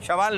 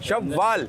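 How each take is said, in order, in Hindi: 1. बीच की w ध्वनि छोटी और एक ही है। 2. बीच की w ध्वनि दोहरी है और खिंची हुई है। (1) "शवाल नहीं है"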